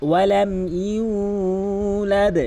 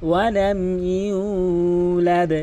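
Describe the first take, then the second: The two takes are said the same way.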